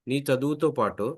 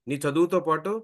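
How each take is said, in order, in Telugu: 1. ఇది మృదువైన, కరుణతో కూడిన స్వరంలో చెప్పబడింది. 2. ఇది కోపంగా, తిడుతున్నట్టుగా చెప్పబడింది. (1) "కరుణరసం నాన్న" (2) "ఉగ్రం నాన్న"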